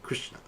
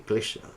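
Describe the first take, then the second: First: The name is said with a clear R sound. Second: The name is said without a clear R sound. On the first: "that R like Krishna" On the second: "you're uh, in China, you don't have that R"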